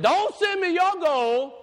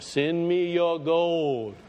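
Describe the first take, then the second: First: High, slow prophet's cry; forceful refusal. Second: Slow, stretched-out money appeal; mock televangelist. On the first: Acted. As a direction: refuse it at full preaching pitch. John's answer to the TV preacher. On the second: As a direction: intone it like a TV fundraiser, dragging the words. Mimics TV preacher asking for gold.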